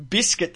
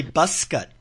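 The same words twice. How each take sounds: First: BISCUIT with a short I in BIS; Australian biscuit. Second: "busket" with an "uh" first vowel; New Zealand biscuit. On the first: Shown as a demonstration. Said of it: "instead of saying biscuit". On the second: Retold or imitated. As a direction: imitate Kiwi "busket", BUS-kit. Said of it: "they say busket".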